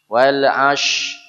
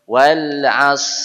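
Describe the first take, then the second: First: The consonant is a hushing sh sound. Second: The consonant is a hissing s sound. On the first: The speaker calls it wrong. "Jangan ke shin. ... ash itu shin" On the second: The speaker calls it right. "Kalau tidak bisa sod, kembalinya ke sin"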